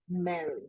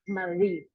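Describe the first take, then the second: First: The stress is on the first syllable. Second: The stress is on the second syllable. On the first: The speaker calls it right. "in the first, right?" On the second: The speaker calls it wrong. "we don't say Marie"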